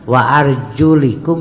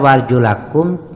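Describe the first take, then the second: First: The vowel after the L is i. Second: The vowel after the L is a. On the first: The feet are wiped. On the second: The feet are washed.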